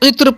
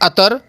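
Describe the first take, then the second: First: It starts with 'i' and ends in 'tr'. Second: It starts with 'a' with a vowel before r. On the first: The speaker calls it right. "उसे इत्र पढ़ना चाहिए" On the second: The speaker calls it wrong. "सब के सब गलत हैं"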